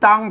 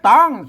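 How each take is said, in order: First: The syllable is said with a mid tone. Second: The syllable is said with a high tone. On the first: "เสียงสมัน" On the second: "เสียงตี"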